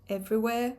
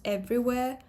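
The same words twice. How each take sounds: The two takes are said the same way.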